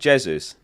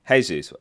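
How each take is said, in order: First: The name begins with a hard J sound. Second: The name begins with an H sound. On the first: "The first one, Jesus, with a J. With a hard J" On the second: "with a H"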